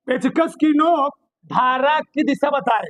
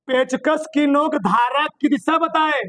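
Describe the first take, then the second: First: पेचकस की नोक धारा की दिशा बताए said slowly; slow dictation. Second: Said in the usual way. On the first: Shown as a demonstration. Teacher dictating the rule slowly to students. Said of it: "बहुत ध्यान से सुनना". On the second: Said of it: "क्या बताए?".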